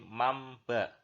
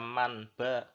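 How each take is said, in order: First: The n turns into an m before the b. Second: A clear n sound is said before the b. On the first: The speaker calls it right. "tapi mamba" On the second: The speaker calls it wrong. "ini tidak dibaca man ba"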